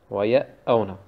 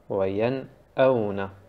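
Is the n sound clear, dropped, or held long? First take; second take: dropped; clear. First: The n is dropped and the glottal stop doubled. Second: The n is pronounced clearly and briefly. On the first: The speaker calls it wrong. "Also den Nun wegzumachen und auf dem Hamza ein Shadda zu machen, ist falsch" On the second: The speaker calls it right. "Also ganz normal lesen"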